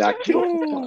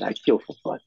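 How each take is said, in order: First: High-pitched mocking echo; mocking quote. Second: Said in the usual way. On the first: Teasing a friend by repeating his tough boast, mocking high voice. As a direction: parrot the tough line way up high. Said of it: "He said".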